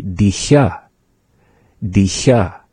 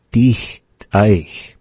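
First: "dicha" said clearly as the question form; teacher demo of "dicha". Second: "dich eich" said clearly as a statement; teacher demo of "dich eich"; pronounce dich eich. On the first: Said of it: "as a question". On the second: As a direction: model "dich eich" as the plain statement form. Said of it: "we say". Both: Shown as a demonstration.

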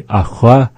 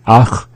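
First: ACHWA raised, with a WA after the CH; question form. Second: ACH as one syllable, ending on the throaty CH; statement form. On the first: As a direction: say "achwa" higher, rising as a question. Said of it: "being asked as a question". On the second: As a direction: say "ach" short, with no vowel after the CH. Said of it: "as a statement". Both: Shown as a demonstration.

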